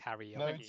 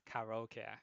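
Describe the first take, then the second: First: The word is pronounced with English-style sounds. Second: The word is pronounced with Japanese-style sounds. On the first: The speaker calls it wrong. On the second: The speaker calls it right. "it's also pronounced karaoke"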